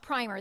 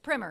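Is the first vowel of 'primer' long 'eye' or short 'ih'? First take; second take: long eye; short ih. First: The first vowel sounds like 'eye'. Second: The first vowel sounds like 'ih'. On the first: It names a paint undercoat. The speaker calls it wrong. "but it's not primer, that's paint" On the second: It names a small introductory book. The speaker calls it right. "It's primer, it's a book"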